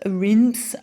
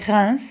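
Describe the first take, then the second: First: The name is pronounced with an English accent. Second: The name is pronounced with a French accent. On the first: "I think you say" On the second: "but we say Reims"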